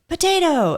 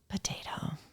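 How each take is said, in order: First: The word is said in a cheerful, upbeat tone. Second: The word is said in a gloomy, downcast tone. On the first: The speaker is having a great day. "And I know he was having a great day" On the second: The speaker is having a rough day. "oh, having a rough day, huh?"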